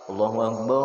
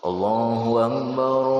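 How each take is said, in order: First: It is said quickly without drawing out. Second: It is said slowly and drawn out.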